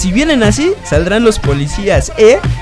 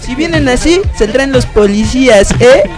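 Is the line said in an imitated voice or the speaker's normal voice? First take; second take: normal; imitated. First: It is said in the speaker's own normal voice. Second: It is said in an imitated, put-on voice.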